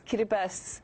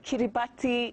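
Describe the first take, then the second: First: The 'ti' is said with an s sound. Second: The 'ti' is said with a t sound. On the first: The speaker calls it right. "That T I makes an S sound" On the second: The speaker calls it wrong. "not a T sound, so it's not Kiribati"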